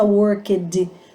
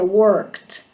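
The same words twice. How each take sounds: First: The word ends with a d sound. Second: The word ends with a t sound. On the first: The speaker calls it wrong. "não tem esse som de D" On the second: The speaker calls it right. "fica com som de T"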